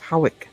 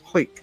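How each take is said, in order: First: The name is said with two syllables. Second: The name is said as one syllable. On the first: This is the common pronunciation. The speaker calls it wrong. "Everybody says Howick" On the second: This is the local pronunciation. The speaker calls it right. "It's Hoyk"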